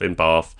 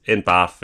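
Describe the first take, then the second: First: "Bath" with a long ah, as in father; long-vowelled southern "Bath". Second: "Bath" with a short a, as in cat; short-vowelled northern "Bath". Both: Shown as a demonstration. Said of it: "I'm probably gonna interchange".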